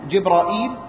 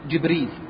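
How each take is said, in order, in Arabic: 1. فيه همزة قبل المقطع الأخير. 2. ما فيه همزة، وأقصر. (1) "على الهمز" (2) "تسهيل الهمز"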